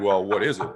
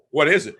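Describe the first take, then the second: First: Said in the usual way. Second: Higher and louder, pressing the question; repeating "What is it?" higher and louder; insistent repeat. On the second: Retold or imitated. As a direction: push the question harder the second time.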